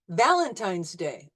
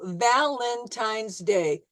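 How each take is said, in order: First: It is said smoothly at normal speed. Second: It is said slowly, syllable by syllable. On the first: "at real speed"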